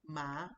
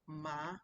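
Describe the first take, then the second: First: The pitch rises from mid to high. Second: The same.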